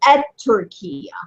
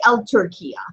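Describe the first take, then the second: First: The article's l becomes a t sound. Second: The article keeps its l sound. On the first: The speaker calls it right. "You say Et Turkiya" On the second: The speaker calls it wrong. "You don't say El Turkiya"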